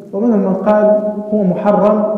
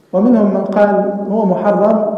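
Both takes have the same delivery.

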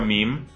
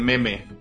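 First: It is pronounced as one syllable, English style. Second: It is pronounced as two syllables, Spanish style. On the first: The speaker calls it right. "Sé que se pronuncia meme" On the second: The speaker calls it wrong. "lo leo en español y se convierte en meme"

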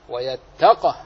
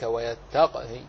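First: The word ends on a fully silent final consonant. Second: The final vowel is faintly voiced at the end. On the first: "فإن وقفت جمعت بين ساكنين" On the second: "وجاز لك أن تأتي بالروم كذلك"

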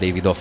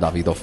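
First: The name is said without German pronunciation. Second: The name is said with German pronunciation. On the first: The speaker calls it wrong. "nem Davidoff" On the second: The speaker calls it right. "hanem Davidoff, mert német"

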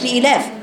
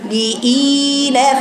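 First: The long vowel is held only briefly. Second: The long vowel is drawn out longer. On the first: The speaker calls it wrong. "ما تقوليش لإلاف" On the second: The speaker calls it right. "هتقوليها لإلاف لإلاف مد بين المد"

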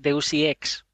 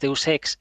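First: 'Ex' is spelled out as two letters. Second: 'Ex' is said as a single word. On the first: The speaker calls it wrong. "no es Deus Ex. Porque no es E.X" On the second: The speaker calls it right. "Deus Ex es Deus Ex"

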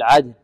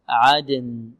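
First: The final n sound is faint and unclear. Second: The final n sound is clearly pronounced. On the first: The speaker calls it wrong. "لا نقول عدن، يعني تكون النون يعني ليست واضحة" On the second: The speaker calls it right. "لابد من إيضاح ماذا؟ النون"

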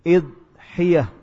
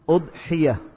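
First: The first vowel is i. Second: The first vowel is u. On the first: "boleh juga dengan mengkasrah huruf hamzahnya" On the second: "dengan mendhamah huruf hamzah"

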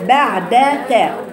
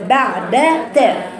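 Both takes have the same delivery.

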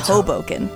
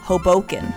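First: The town name is said the local way. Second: The town name is said the outsider way. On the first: This is how the name is properly said. The speaker calls it right. "It's Hoboken" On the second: This is how some West Coast speakers say it. The speaker calls it wrong. "they both pronounced it incorrectly, but the same way"

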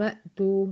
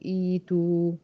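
First: It joins the previous word with no initial vowel. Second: It begins with a long 'ee' sound. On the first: The word is read joined to the word before it. "هنا في الوصل انا قلت ايه؟" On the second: Reading starts fresh at this word. "عند البدء هقول إيتو، عشان هنا الهمزة هتبدل لياء"

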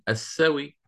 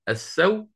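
First: The word ends with a faint, partial vowel. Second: The word ends on a bare, silent consonant. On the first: "أو آتي بالروم السوي" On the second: "إما بسكون محض السو"

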